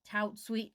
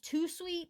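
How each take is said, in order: First: The first word ends with a t sound. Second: The first word ends without a t sound. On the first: The name is read as it is spelled. "but it's like tout sweet" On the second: The name is read the French way. "I want to say it's Too Sweet since it's French"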